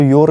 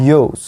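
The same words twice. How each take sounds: First: "your" with the r sounded; wrong YOURS. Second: "yours" with the r dropped; correct YOURS. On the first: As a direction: say "your" with a clear final r. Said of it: "इसको your नहीं बोलना है". ("your" में र का साफ़ उच्चारण) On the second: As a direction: say "yours" as "yoz", no r. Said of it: "इसको बोलना है". ("yours" बिना र के, "योज़" जैसा) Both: Shown as a demonstration.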